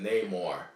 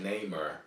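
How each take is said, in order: First: The name ends with a full 'more' sound. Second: The name ends with a weak 'mer' sound. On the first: The speaker calls it right. "He said Namor" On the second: The speaker calls it wrong. "I said Namer"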